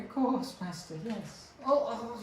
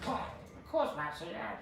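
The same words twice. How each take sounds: First: High, eager servant goblin; squeaky little goblin, very high. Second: High, breathless goblin servant. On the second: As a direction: squeak it out like a tiny goblin. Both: Acted. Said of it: "That was my, uh, goblin voice".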